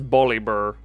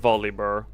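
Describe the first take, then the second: First: The name begins with a B sound. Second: The name begins with a V sound.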